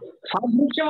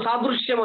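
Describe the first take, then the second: First: సాదృశ్యం with the దృ left light; light pronunciation. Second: సాదృశ్యం with a firmly pressed ద్దృ; pressed conjunct. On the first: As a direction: pass lightly over the conjunct in సాదృశ్యం. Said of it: "అనకూడదు". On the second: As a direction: lean into the దృ of సాదృశ్యం. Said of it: "ఒత్తి పలకాల్సిందే". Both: Shown as a demonstration.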